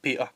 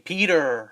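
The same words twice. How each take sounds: First: The middle T is left out completely. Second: The middle T sounds like a D. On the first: "in Scotland I skip it out altogether" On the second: "they say Peter with a D"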